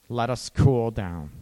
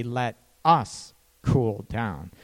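First: Said in the usual way. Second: Slow, with weight on "us" in "Let us cool down."; stress on us. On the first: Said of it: "You say". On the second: Shown as a demonstration. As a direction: lean on "us", drawn out slowly. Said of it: "You say, "Let us cool down".

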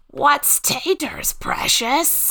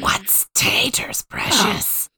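First: Higher, slow strained Gollum. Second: Slow whispered Gollum rasp; too-deep Gollum. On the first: Second try at Gollum for the cohosts, high and slow. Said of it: "That was pretty good". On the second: Trying Gollum on the podcast, a slow whispered rasp. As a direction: breathe out a low Gollum hiss. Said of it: "No, that was way too deep". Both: Pretend.

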